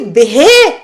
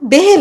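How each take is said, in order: First: The word ends with an added vowel sound. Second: The word ends on a consonant sound. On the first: The speaker calls it wrong. "ये बेहे क्या होता है?" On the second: The speaker calls it right. "वो बेह लफ्ज है।"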